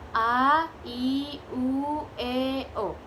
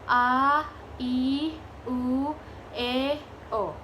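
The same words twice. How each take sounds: First: The vowels are said at medium speed. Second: The vowels are said slowly. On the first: "set medium atau sedang" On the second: "set lambat"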